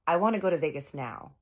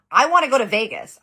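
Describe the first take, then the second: First: Said in the usual way. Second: Much louder, higher angry shout; imitated yell. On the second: Old man slamming the table, yelling about Vegas. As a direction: bellow it like a furious old man. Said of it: "He's yelling about Vegas".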